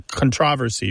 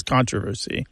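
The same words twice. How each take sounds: First: "controversy" stressed on its second syllable, con-TROV-ersy; "controversy" as kun-TROV-er-see. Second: "controversy" stressed on its first syllable, CON-troversy; "controversy" as KON-truh-ver-see. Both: Shown as a demonstration. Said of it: "it's just a change thing".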